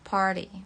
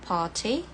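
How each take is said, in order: First: The middle consonant sounds like a soft D. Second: The middle consonant is a clear T sound. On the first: "Kalau American" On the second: "Kalau British"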